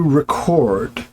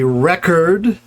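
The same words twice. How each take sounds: First: The stress is on the last syllable. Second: The stress is on the first syllable. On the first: It is used as a verb. "the equivalent verb will have the stress on the last syllable" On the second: It is used as a noun. "nouns ... will tend to have their stress on the initial syllable"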